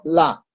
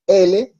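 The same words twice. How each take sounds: First: "la" as one syllable ending in a; name the consonant "la", no leading e; Hindi letter name. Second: "L" said "ele", two syllables; name "L" the Spanish way, as e-le; Spanish letter name. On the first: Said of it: "sino la". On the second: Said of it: "No decimos L". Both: Shown as a demonstration.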